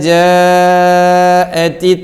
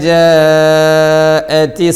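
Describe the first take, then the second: No difference in how they are said.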